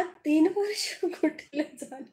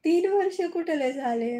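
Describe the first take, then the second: First: Laughing. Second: Plain louder. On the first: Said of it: "हसायला काय झालं?". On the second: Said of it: "repeats the question". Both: Real, not acted.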